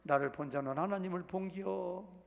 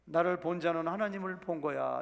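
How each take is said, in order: First: 충청도 사투리로 본기요; Chungcheong dialect. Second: Said in the usual way. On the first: Retold or imitated. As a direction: say 본기요 in a Chungcheong accent instead of 본 거야. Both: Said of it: "충청도 말로".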